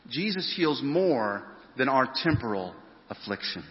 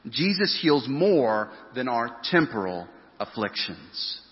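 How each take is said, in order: First: Said in the usual way. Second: Slow, weighted statement of the main point; deliberate slow sermon point; slow emphasis. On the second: Shown as a demonstration. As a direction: lay each word down slowly.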